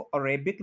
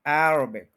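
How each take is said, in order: First: अरेबिक as "a-RAY-bik"; mispronounced Arabic. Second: अरेबिक as "AIR-uh-bik", AIR stressed; stress on first syllable. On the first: Teacher warning against the mistake, अरेबिक as "a-RAY-bik". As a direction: stress "ray" in the middle of अरेबिक. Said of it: "इसको अरेबिक नहीं बोलना". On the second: Teacher giving correct Arabic, stressed on AIR. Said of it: "first पे stress है". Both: Shown as a demonstration.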